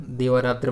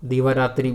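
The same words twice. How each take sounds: First: दिवारात्र ending in tra, no i; correct form. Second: दिवारात्रि ending in an i sound; incorrect form. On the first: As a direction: finish दिवारात्र on a short a. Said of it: "बनता है". (सही रूप दिवारात्र, अंत में 'त्र') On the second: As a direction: finish दिवारात्रि on tri. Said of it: "बिल्कुल नहीं बनेगा". (गलत रूप दिवारात्रि, अंत में 'त्रि') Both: Shown as a demonstration.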